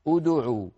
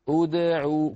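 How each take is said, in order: First: The d sound is said with rounded lips. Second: The d sound is unrounded with a bounce. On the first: The speaker calls it wrong. "يعني لا يصح أن نقول انظر الخطأ أدعو" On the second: The speaker calls it right. "نعيدهما إلى وضعهما الطبيعي ونقلقل الدال"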